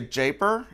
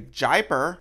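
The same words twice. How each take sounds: First: The name sounds like the word taper. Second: The name sounds like the word diaper. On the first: "it kind of sounds like taper" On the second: "it kind of sounds like diaper"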